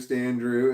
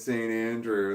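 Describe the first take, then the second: First: The name is run together as two syllables. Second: The name is said as three separate syllables. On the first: The speaker calls it wrong. "I kept saying Stan Drew" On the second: The speaker calls it right. "oh, it's Saint Andrew"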